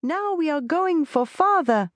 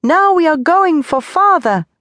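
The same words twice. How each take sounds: First: Put-on high, joyful child calling out; child's shout. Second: Put-on high, loud child's shout. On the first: Little Tony cheering to his mother, high and joyful. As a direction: cheer it like a happy little boy. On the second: Tony shouting with joy beside his mother, high and loud. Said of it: "shouted once more". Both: A narrator's reading.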